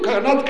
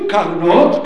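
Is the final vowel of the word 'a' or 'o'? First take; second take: a; o. First: The final syllable has an 'a' vowel. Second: The final syllable has an 'o' vowel. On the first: The speaker calls it wrong. "אל תגידו" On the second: The speaker calls it right. "תגידו"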